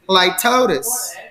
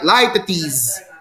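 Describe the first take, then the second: First: The stress falls on the second syllable. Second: The second syllable is not the stressed one. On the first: "with the stress on the second syllable" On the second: "with the first pronunciation, the last sound is a z"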